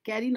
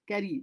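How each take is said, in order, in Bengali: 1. প্রথম স্বরধ্বনিটি মুখ বেশ খোলা রেখে উচ্চারণ করা হয়। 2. প্রথম স্বরধ্বনিটি মুখ প্রায় বন্ধ রেখে উচ্চারণ করা হয়। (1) "carry নয়" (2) "মুখটা খুলবে না"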